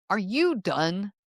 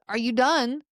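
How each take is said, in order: First: Slow, pointed challenge with weight on "you"; argumentative. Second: Light, neutral check-in; waiter's polite question. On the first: Sibling during an argument, fed-up challenge. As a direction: challenge them, drawing out "you". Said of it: "from a sibling during an argument". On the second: Waiter to a diner in a restaurant, polite. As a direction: ask simply, with no edge. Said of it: "like a waiter in a restaurant". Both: Shown as a demonstration.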